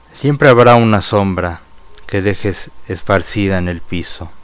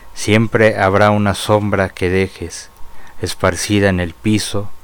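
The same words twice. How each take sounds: No difference in how they are said.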